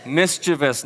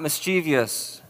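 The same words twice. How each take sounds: First: Mischievous said in three syllables, MIS-chuh-vus; Mischievous with no -ee- before the ending; correct pronunciation. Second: Mischievous said with four syllables, mis-CHEE-vee-us; mischievous as the common mistake, mis-CHEE-vee-us; wrong pronunciation. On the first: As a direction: say Mischievous as MIS-chi-vus, no extra i sound. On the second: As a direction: slowly add an extra ee sound: mis-chee-vee-us. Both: Shown as a demonstration. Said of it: "not mischievous".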